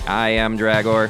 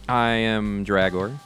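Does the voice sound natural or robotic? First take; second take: robotic; natural. First: The voice sounds flat and mechanical like a robot. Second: The voice sounds like an ordinary human voice. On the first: "Let's do it again, but robots" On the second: "I don't know why we said it like that"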